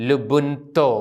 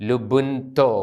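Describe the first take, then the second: The two takes are said the same way.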